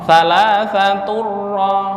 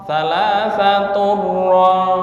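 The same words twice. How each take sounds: Both takes have the same delivery.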